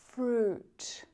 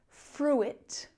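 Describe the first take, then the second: First: Only a single 'oo' vowel is heard. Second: An extra 'ih' vowel follows the 'oo'. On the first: The speaker calls it right. "we just use that oo vowel sound" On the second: The speaker calls it wrong. "we don't pronounce that I sound. So it's not fruit"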